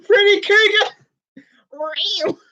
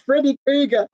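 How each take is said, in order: First: Hammed-up drawn name. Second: Said in the usual way. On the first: Real, not acted.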